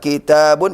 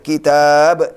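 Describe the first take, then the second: First: The word ends with the full ending 'un'. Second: The word ends on a bare 'b' sound.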